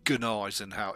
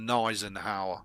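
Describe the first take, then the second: First: The initial G sound is pronounced. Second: The initial G sound is left silent. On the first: The speaker calls it wrong. "Some say Gneisenau. It's not" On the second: The speaker calls it right. "it's a silent fucking G"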